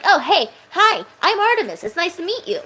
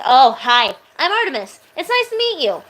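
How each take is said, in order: First: High bubbly character voice; friendly Artemis voice. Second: Friendly Artemis voice. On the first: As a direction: greet a stranger gently and sweetly. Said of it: "when I talk like this". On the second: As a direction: greet a new friend brightly and sweetly. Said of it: "It's like a friendly voice". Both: Shown as a demonstration.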